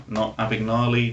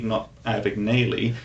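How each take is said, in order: First: "Abagnale" as "Abag-NAH-lee"; wrong pronunciation. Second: "Abagnale" as "Abag-NAY-lee"; wrong pronunciation. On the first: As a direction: drop in "Abagnale" with a "-nahlee" ending. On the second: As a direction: drop in "Abagnale" with a "-naylee" ending. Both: Shown as a demonstration. Repeats the earlier pronunciation joke.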